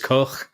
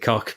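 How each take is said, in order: First: The name ends in a throaty ch sound. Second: The name ends in a hard k sound. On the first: This is the name's real pronunciation. "cock's name is Koch as well" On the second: This pronunciation is used to make a pun. "we just pronounce it cock because it's better"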